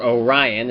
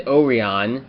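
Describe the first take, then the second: First: Orion said "oh-RYE-un"; English-speakers' pronunciation. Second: Orion said "oh-ree-on"; Japanese-show pronunciation. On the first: Giving the English speakers' version, Orion as "oh-RYE-un". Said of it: "if they primarily spoke English". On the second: Naming Shishi Red's debut, Orion as "oh-ree-on". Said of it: "or Orion, as some people would call it". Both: Shown as a demonstration.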